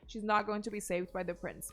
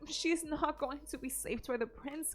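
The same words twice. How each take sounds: First: It is said in a plain, neutral tone. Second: It is said in a smug, preachy tone. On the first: The speaker calls it right. "she could have said that in a different way" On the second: The speaker calls it wrong. "the insufferable way in which she says"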